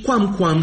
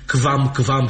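First: The qu is pronounced with a w sound. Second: The qu is pronounced with a v sound. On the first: This is how it was said in ancient times. The speaker calls it right. "ci quam-quam și aqua-qua" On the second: This is how it is said today. The speaker calls it wrong. "nu putea fi quam-quam și aqua, cum zicem azi"

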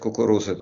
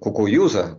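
First: The third consonant is a clear r sound. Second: The third consonant sounds like a y glide. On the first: The speaker is one of the locals. "если ты мог сказать «кукуруза" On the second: The speaker is marked as an outsider. "а если ты говорил, как еврей"

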